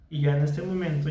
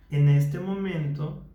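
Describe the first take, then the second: First: Faster, fluent, unreflective talk; quick autopilot speech. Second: Slowed down, each word placed with care; slow, mindful speech. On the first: Therapist showing careless everyday talking, quick and fluent. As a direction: rattle it off without listening to yourself. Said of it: "ya solamente estoy hablando". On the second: Therapist demonstrating mindful speech to a client, slow and deliberate. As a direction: speak slowly, listening to your own voice. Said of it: "estoy siendo consciente y estoy escuchando cómo hablo". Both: Shown as a demonstration.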